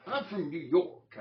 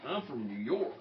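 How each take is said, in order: First: High, loud, drawn-out mock New York accent; exaggerated second stab at a New Yorker; badly faked New York accent. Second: Put-on light, tentative stab at a New York accent; raised-pitch mock New Yorker line; attempted New York accent. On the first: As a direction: push a hammed-up New York accent, slowly and loudly. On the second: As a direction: try a New York accent, not quite landing it. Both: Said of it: "I can't do the accent".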